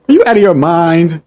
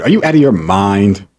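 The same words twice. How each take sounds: First: Higher, louder incredulous question; raised-voice indignation; outraged repeat. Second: Said in the usual way. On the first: Real, not acted. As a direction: exclaim it in high-pitched disbelief.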